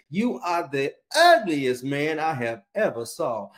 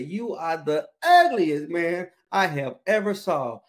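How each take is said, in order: First: Slow, drawn-out insult; lightly voiced rude parrot. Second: Slow, drawn-out insult, a bit louder; insulting parrot, louder. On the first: Parrot insulting a passing customer, slow and mocking. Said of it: "that parrot said to that man". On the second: Retold or imitated. Parrot repeating its insult to the customer, slow and mocking. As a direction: rude parrot pushing it again. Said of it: "looked at that guy and said".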